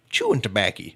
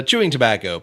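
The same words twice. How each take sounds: First: Tobacco said as "tobacky"; folksy pronunciation. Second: Said in the usual way. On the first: Shown as a demonstration. Host reading quiz option A, tobacco as folksy "tobacky". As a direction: end tobacco in a folksy "-acky".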